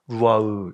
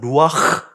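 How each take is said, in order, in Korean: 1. 끝의 목구멍 소리 ㅎ은 발음하지 않아요. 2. 목구멍 소리 ㅎ으로 끝나요. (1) "루아으 이 정도로 했겠죠" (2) "루아흐 이렇게 돼야 되는데"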